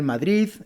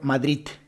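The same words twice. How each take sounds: First: The word ends with a soft D sound. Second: The word ends with a T sound. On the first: "Estas en realidad deben ser Madrid" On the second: "en vez de utilizar la D, utilizar la T"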